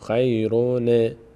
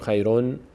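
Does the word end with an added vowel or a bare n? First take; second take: added vowel; bare n. First: The final n carries an added i vowel. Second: The word ends on a bare, unvoweled n. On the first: The speaker calls it right. "میگیم خیرونه" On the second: The speaker calls it wrong. "نمیگیم خیرون، نون ساکن نمیخونیم"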